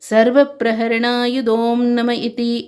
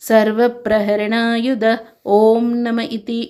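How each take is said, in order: First: Om is merged into the preceding word. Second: Om is said as a separate word. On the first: The speaker calls it right. "ಎಂದು ಹೇಳಬೇಕು" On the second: The speaker calls it wrong. "ಎಂದು ಹೇಳದೆ"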